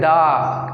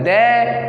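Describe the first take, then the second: First: The word ends in an 'ah' vowel. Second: The word ends in an 'ay' vowel. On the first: The speaker calls it wrong. "दा नहीं होता उच्चारण इसका।" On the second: The speaker calls it right. "कोई बोलता है दे"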